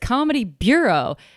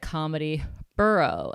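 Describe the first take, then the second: First: The last word sounds like 'byoo-row'. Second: The last word sounds like 'borough'. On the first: The speaker calls it right. "It's Comedy Bureau" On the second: The speaker calls it wrong. "I always said the Comedy Borough"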